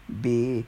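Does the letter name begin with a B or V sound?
V. The letter starts with a V sound. "instead of, you know"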